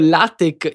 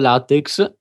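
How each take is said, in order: First: The word ends with a plain k sound. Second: The word ends with a ks sound. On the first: The speaker calls it right. "pronunciato LaTeX in italiano" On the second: The speaker calls it wrong. "errato LaTeX"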